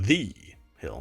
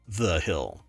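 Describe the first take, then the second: First: The stress falls on the word The. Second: The stress falls on the word Hill.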